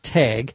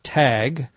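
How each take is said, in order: First: The word is said in a Minnesota accent. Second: The word is said in a non-Minnesota accent. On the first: "in my Minnesota accent it's tag" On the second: "some would pronounce it tag"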